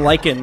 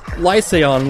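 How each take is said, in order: First: It is said in two syllables, like 'lichen'. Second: It is said in three syllables, 'lie-say-on'. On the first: The speaker calls it wrong. "I'd been saying lichen, because I had no idea to pronounce it" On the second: The speaker calls it right. "it is Lyseon, like... Lie, say, and the word on"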